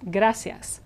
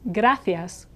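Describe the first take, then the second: First: The c sounds like an s. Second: The c sounds like th in thin. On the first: "in Latin America it's gracias" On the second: "thank you in Castilian Spanish is gracias"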